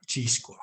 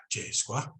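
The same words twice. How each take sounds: First: "Chi squa" with a long "ee" in Chi; "Chi squa", first vowel as in "see"; northern pronunciation. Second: "Che squa" with an "ay" vowel in Che; "Che squa", first vowel as in "day"; other dialect's pronunciation. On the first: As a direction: say "Chi squa" with Chi sounding like "chee". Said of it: "We always go with the E". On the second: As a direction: say "Che squa" with Che sounding like "chay". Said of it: "we don't really say che". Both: Shown as a demonstration.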